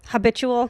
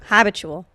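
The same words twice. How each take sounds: First: Habitual rising as a question, stress shifted; testing the other stress on Habitual. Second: Habitual stressed on the first syllable, HAB-itual; correcting Pat's stress on Habitual. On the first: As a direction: ask Habitual back with a rising lilt. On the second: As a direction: say Habitual with a firm, falling first-syllable hit. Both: Shown as a demonstration. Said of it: "changing the emphasis on that word".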